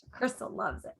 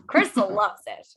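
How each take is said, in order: First: Much softer, tossed-off repeat; quiet aside. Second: Said through a laugh. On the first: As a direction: drop it to an aside. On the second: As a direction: laugh it out, teasing. Teasing Crystal, laughing. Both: Real, not acted.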